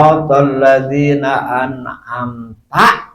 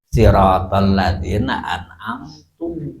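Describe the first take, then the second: First: The last word ends with an 'a' vowel. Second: The last word ends with a 'u' vowel. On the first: It addresses God as you. The speaker calls it right. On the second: It refers to the speaker himself. The speaker calls it wrong. "teu sah"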